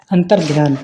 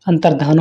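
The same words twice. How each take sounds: First: अंतर्ध्यान with a y-glide, "dhyaan"; mispronunciation. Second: Said in the usual way. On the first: Shown as a demonstration. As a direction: slip a y into the end of अंतर्ध्यान. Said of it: "अंतर्ध्यान नहीं होता". (अंतर्ध्यान में 'य' जोड़कर) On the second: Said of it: "अंतर्धान होता है".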